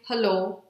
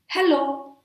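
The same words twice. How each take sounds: First: Without energy, plain. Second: High, projected "hello"; energetic greeting. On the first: Teacher showing how not to say hello, plain and energyless. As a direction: say hello with no lift. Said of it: "without energy and plain". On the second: Teacher modelling hello with energy, pitched high. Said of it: "let's project some energy". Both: Shown as a demonstration.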